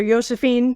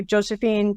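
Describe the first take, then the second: First: "Josephine" said with a Y sound, as Yosephine; grandpa's Swedish J. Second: Said in the usual way. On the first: Retold or imitated. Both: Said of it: "When Grandpa can't say a J".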